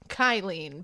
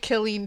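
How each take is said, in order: First: The first syllable sounds like 'kyle', as in Eileen. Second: The first syllable sounds like 'kill'. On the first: The speaker calls it wrong. "I pronounced it Kylene because in my mind it made sense" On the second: The speaker calls it right. "I'm sorry, Killeen, Texas"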